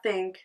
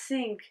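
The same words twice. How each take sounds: First: Said in the usual way. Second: "think" said as "sink". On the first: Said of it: "I just said think, not think". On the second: Shown as a demonstration. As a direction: turn the th of "think" into an s. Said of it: "I said think".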